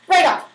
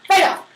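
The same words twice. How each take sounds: The two takes are said the same way.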